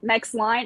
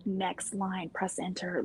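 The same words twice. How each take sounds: First: Said in the usual way. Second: "Next line, press enter" whispered softly and carefully; whispered dictation command. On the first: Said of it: "and it types out". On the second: Shown as a demonstration. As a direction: hush it to the watch, spelling out "Next line".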